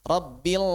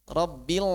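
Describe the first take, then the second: Both takes have the same delivery.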